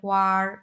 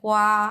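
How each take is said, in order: First: The word ends with an added r sound. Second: The word ends without an r sound. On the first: "Beijing এর লোকেরা বলে হোয়ার" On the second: "আমরা বলি হোয়া"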